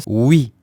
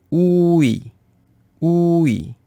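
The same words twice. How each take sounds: First: Oui as one syllable, ou gliding into i; vowels blended. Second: Oui with a long ou sliding slowly into i; drawn-out two vowels. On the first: Teacher showing what the vowels become, blended. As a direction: say oui in a single beat. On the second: Teacher decomposing the vowel for learners, drawn out. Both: Shown as a demonstration. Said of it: "Alors ça devient oui".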